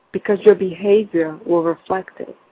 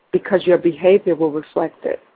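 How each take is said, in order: Both takes have the same delivery.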